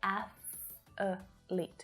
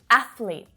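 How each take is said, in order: First: An extra vowel makes three syllables. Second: It is said with two syllables. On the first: The speaker calls it wrong. "adding that extra little schwa sound in there ... This is actually incorrect" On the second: The speaker calls it right. "this is two syllables only, not three"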